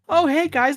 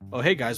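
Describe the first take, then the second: First: The voice is high-pitched and naive. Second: The voice is lower and cooler. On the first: It imitates the younger, naive character. "high pitched voice" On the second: It imitates the cooler character. "Roxas had a lower tone to his voice"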